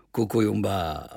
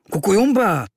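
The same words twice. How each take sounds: First: Calm, friendly "Kukujumba" at normal pitch; přátelské přitakání. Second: High, loud reproachful exclamation. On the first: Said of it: "Zubil se na mě a pokyvoval hlavou". (přátelsky, klidně) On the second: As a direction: cry "Kukujumba" as a reproach to a friend. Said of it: "řekl trochu vyčítavě". (vyčítavý výkřik) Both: A narrator's reading.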